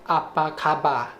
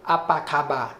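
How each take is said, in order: Both takes have the same delivery.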